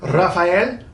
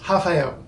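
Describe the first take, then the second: First: It begins with an R sound and ends in L. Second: It begins with an H sound and ends in U. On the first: The speaker calls it wrong. "whose name looks like it should be Rafael" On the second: The speaker calls it right. "it's h ... the L at the end becomes U"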